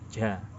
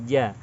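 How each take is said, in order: First: The syllable is said with a lot of breath. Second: The syllable is said clearly with little breath. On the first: The speaker calls it wrong. "menyebutkannya dengan banyak nafas" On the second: The speaker calls it right. "nafas tidak banyak keluar"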